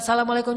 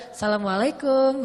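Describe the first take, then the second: First: Said in the usual way. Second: "Assalamualaikum" with a teasing, flirtatious lilt; flirty greeting.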